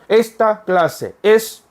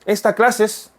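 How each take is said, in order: First: Each word is pronounced separately, without merging. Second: The two e sounds merge into one word. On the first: It is read this way to help learners follow. "여러분들의 이해를 돕기 위해서 ... 이렇게 읽어드리지만 실제 원어민들 그렇게 안 읽는다" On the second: This is how native speakers actually say it. "esta clases 하면 원어민들은 어 esta clase es라고 입력이 되는 거예요"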